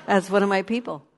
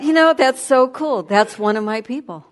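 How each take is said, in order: First: Said in the usual way. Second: Higher and louder, delighted; excited. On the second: Real, not acted. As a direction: burst out with joy. Joyful recalled thought.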